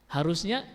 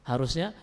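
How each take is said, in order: No difference in how they are said.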